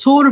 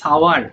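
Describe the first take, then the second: First: The word is said with one vowel, like sore. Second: The word is said with two beats, like sow-er. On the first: The speaker calls it wrong. "অনেকে সোর বলে" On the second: The speaker calls it right. "উচ্চারণটা হবে সাওয়ার"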